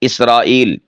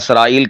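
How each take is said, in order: First: The word begins with a short i sound. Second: The word begins with a short a sound. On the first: The speaker calls it right. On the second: The speaker calls it wrong.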